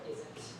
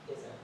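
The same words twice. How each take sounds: First: The final T is fully released and strong. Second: The final T is cut off in the throat. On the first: The speaker calls it wrong. "we don't say that strong T in American English" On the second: The speaker calls it right. "We'll say"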